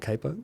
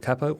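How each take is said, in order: First: The word is said in an American way. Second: The word is said in a non-American way.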